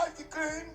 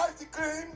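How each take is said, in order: Both takes have the same delivery.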